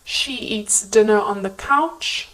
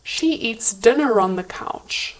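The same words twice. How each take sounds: First: "dinner on" as separate words, no linking R; "dinner" ending in uh before a separate "on"; unlinked words. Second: "dinner on" merged as "dinne-ron"; connected speech. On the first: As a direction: keep "dinner" apart from "on". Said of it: "examples of connected speech transformations". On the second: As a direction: link "dinner" to "on" with an R. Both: Shown as a demonstration.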